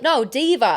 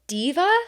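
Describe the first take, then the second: First: "Diva" with an Aussie drawn vowel, falling; Australian correction. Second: "Diva" higher, rising at the end; puzzled question. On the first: Australian missionary correcting a puzzled companion, firm "Diva". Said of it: "He's like". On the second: Confused missionary checking the name, "Diva" rising. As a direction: query "Diva" with a questioning lift. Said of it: "And I was like". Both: Retold or imitated.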